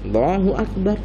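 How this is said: It is said in a lazy, listless way. The person is reluctant to pray. The speaker calls it wrong. "Nak sholat tapi malas-malasan takbirnya"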